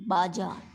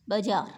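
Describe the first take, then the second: First: बाजार with a long first vowel, bājār; correct pronunciation. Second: बाजार said with a short first vowel, bəjār; wrong pronunciation. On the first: Teacher pronouncing बाजार correctly for students. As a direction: say बाजार as bā-jār, open long a. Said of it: "शुद्ध बोला". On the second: Teacher mispronouncing बाजार on purpose for students. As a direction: say बाजार as bə-jār, clipped first syllable. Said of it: "बाजार, न कि बाजार". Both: Shown as a demonstration.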